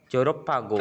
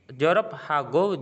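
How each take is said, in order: First: It is read quickly with the sounds run together. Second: It is read at a careful, unhurried pace. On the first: "kalau mau baca cepat" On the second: "juga bisa"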